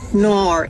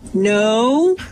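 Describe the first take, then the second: First: It is an Australian no, sounding like nor. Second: It is a plain American no.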